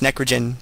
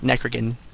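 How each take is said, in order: First: The final syllable has a soft g sound. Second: The final syllable has a hard g sound. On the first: The speaker calls it right. "It's Gen, like generation" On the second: The speaker calls it wrong.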